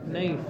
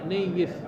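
First: The y sound is short and single. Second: The y sound is doubled and lengthened. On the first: The speaker calls it wrong. "خطأ" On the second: The speaker calls it right. "بفتح النون وتشديد الياء المكسورة"

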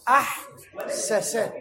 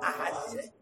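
First: The two s sounds are said separately. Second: The two s sounds merge into one doubled s. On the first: This is the underlying original form. "قبل الإدغام" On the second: This is the actual spoken form. "النطق بالإدغام"

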